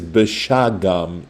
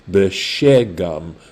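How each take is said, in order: First: The middle vowel is not an e sound. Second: The middle vowel is an e sound. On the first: This is how the word is written in the text. "it says beshagam in the Hebrew" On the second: This is an alternative way to read the word. "besagol with the s sound"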